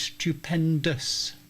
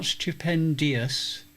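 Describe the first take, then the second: First: The ending is a plain 'dus' sound. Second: The ending has an extra 'ee' sound: 'dee-us'. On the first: The speaker calls it right. "it's stupendous" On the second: The speaker calls it wrong. "it's not stupendious"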